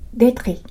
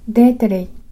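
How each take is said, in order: First: The r is a trill at the back of the throat. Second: The r is a tap after an inserted vowel sound. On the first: "喉の奥を震わせる音が来ると" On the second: "干渉音と弾き音を使うと"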